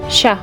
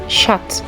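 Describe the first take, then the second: First: The word ends in a vowel, no final T. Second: The word ends with an audible T sound. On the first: The speaker calls it right. "so it's pronounced sha" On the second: The speaker calls it wrong. "not chat"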